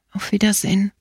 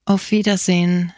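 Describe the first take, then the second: First: Moved voice, fading. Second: A touch of emotion in a gentle farewell; moved voice. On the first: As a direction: let the goodbye sink away, understated emotion. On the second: Dying priest bids his young friend farewell, gently moved. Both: A narrator's reading. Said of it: "sagte mit merkwürdig bewegter Stimme".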